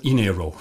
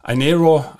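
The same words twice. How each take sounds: First: Inero opening on "ee"; German pronunciation. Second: Inero opening on "eye"; English pronunciation. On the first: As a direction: pronounce Inero as "ee-NEH-ro", as in German. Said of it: "That's the German pronunciation". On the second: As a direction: pronounce Inero as "eye-NEH-ro". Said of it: "I N E R O in English". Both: Shown as a demonstration.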